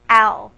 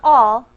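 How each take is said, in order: First: The vowel sounds like the one in 'pal'. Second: The vowel sounds like the one in 'ball'. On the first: The speaker calls it right. "let me say this correctly" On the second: The speaker calls it wrong. "Not all"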